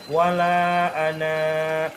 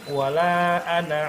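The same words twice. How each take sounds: First: The final vowel is drawn out long. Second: The final vowel is short, running on. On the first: The reader stops after this word. "Ketika wakof dia dibaca panjang" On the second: The reader continues into the next word. "ketika wasol bacanya pendek"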